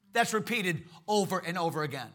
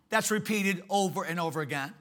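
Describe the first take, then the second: No difference in how they are said.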